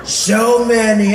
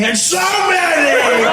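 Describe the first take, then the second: First: Loud, very slow, stretched words; drawn-out presidential phrase before the leap up; Donald Trump, low take. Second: Loud, slow swoop up high; Donald Trump, high take. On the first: President in a speech, slow drawn-out lower voice. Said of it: "it was low". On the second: President in a speech, suddenly high stretched voice. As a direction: leap up in pitch and hold the vowels. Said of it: "It was always high". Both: Acted.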